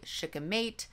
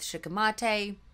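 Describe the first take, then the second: First: It uses the widely used pronunciation of the word. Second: It uses the rarer pronunciation of the word. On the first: "the way that most people pronounce it" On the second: "I went with shikimate"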